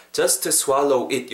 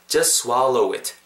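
First: Just with its t sounded, swallow and it separate; unlinked. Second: Just without its t, swallow joined to it; linked. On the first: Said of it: "이렇게 발음하시는 거랑". (just, swallow, it을 각각 따로 발음) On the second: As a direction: run just swallow it together. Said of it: "느낌 완전히 다르죠?". (just의 t를 빼고 swallow it을 이어서) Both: Shown as a demonstration.

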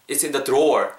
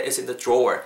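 First: "drawer" with a plain hard d before r. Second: "drawer" begun with a j-like sound. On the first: Teacher showing less natural version, hard-d "drawer". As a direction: keep a clear d in "drawer". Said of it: "알아듣겠죠?". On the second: Teacher showing easier-to-understand version, j-like "drawer". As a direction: soften dr in "drawer" toward j. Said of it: "지읒에 가깝게 하면 훨씬 더". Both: Shown as a demonstration.

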